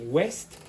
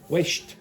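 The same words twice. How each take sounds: First: The word is said with a plain s sound. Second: The word is said with an sh sound. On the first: "instead of west" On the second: "you might also in the west of Ireland hear sh instead of s"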